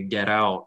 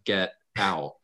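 First: The t is a quick, soft flap. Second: The t is a full, clear stop. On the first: "it turns into a flap, like you just say get out" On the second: "instead of get out"

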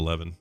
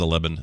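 First: The middle consonant is a v sound. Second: The middle consonant is a b sound. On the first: This is the usual way to say it. The speaker calls it right. "instead of 11" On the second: This is how the brother says it. The speaker calls it wrong. "my brother says 11"

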